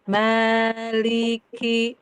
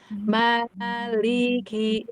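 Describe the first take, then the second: First: The ki is said light, like li. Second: The ki is said heavy with an open mouth. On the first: The speaker calls it wrong. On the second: The speaker calls it right. "dibuka, liki"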